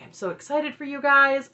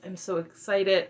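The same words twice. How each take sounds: First: Higher, louder bubbly gush; gushing excitement. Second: Slower, plain-level repeat of "excited"; slower restatement. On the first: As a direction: gush over the couple. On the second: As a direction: pull back and say "excited" deliberately, slowly. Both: Retold or imitated. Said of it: "So Aspen's like".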